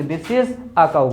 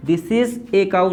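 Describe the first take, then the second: First: "a" said as an open "ah" before "cow"; article as "aa". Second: "a" said as the letter name "ay" before "cow"; wrong letter-name article. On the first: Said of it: "क्या बोलेंगे". ("a" को "आ" बोलें, "आ cow") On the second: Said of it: "This is a cow नहीं". ("a" को "ए" बोलें, "ए cow") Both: Shown as a demonstration.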